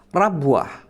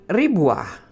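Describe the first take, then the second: First: The first vowel is a. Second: The first vowel is i. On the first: "dengan fathah pada huruf ra-nya" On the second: "dengan kasrah pada huruf ra-nya"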